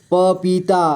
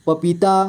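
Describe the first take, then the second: First: पपीता split into प, पी, ता; syllable by syllable. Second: Said in the usual way. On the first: Shown as a demonstration. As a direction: draw out each syllable of पपीता. (पपीता को तोड़कर: प, पी, ता) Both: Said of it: "थोड़ा fast पढ़ेंगे".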